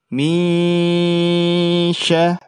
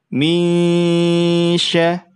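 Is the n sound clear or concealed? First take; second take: concealed; concealed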